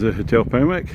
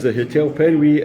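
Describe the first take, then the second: First: The name ends with a 'wick' sound. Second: The name ends with a 'wee' sound.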